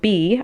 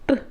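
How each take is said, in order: First: The letter is said as its alphabet name. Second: The letter is said as its phonetic sound. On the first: "Instead of saying B" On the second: "I say B"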